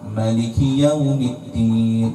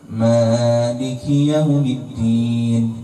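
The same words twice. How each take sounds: First: The first vowel of Maliki is short. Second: The first vowel of Maliki is long. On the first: "tanpa alif" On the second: "bil alif"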